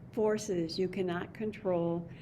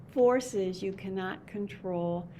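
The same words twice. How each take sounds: The two takes are said the same way.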